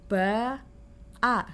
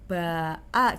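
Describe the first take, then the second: First: The two syllables are said slowly, apart. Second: The two syllables are said quickly, joined.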